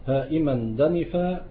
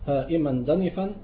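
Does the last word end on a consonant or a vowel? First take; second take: consonant; vowel. First: The last word ends on a bare consonant. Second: The last word ends with a long a vowel.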